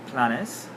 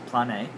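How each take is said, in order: First: The word ends with an s sound. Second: The word ends without an s sound. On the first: The speaker calls it wrong. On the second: The speaker calls it right.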